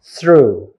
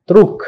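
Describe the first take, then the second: First: "through" with th at the start and an open oo ending; correct pronunciation. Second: "truk" with a hard t and a k ending, loud; wrong pronunciation. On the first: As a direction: model "through" with no final consonant. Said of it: "but it should be". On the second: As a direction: mispronounce through as "truk". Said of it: "you may pronounce". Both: Shown as a demonstration.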